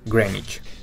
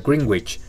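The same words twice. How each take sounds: First: The middle w sound is silent. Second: The middle w sound is pronounced. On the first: The speaker calls it right. "pero en realidad es Greenwich" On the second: The speaker calls it wrong. "uno pensaría que se pronuncia Greenwich"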